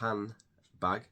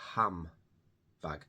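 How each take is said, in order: First: The first syllable ends with n and d. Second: The first syllable ends with an m sound. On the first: "instead of saying handbag" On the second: "we often say ham bag"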